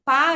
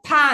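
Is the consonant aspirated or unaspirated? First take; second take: unaspirated; aspirated. First: The p sound has no breath after it. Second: The p sound has a puff of breath. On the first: The speaker calls it wrong. "పా అనకుండా" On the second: The speaker calls it right. "ఫా అనాలి, PHA sound"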